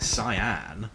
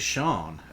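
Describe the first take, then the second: First: The name is two syllables beginning with s. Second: The name is one syllable beginning with sh. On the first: The speaker calls it wrong. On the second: The speaker calls it right.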